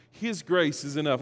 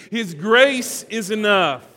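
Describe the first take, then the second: First: Said in the usual way. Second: His grace is enough, loud and slow, grace hit hard; slow, loud, fervent declaration; with conviction. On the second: Shown as a demonstration. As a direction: proclaim it like you mean it. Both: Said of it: "now say it like you mean it".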